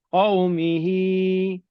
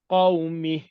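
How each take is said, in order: First: The final vowel is held long. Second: The final vowel is dropped, ending on h. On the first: The reading continues on. "dua harakat" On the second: The reader stops at this word. "satu harakat sukun"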